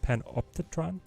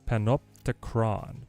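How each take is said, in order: First: The syllable before the end has a 'ch' sound. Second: The syllable before the end has a 'cr' sound. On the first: The speaker calls it wrong. "Am I saying this right" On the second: The speaker calls it right. "it's a cr"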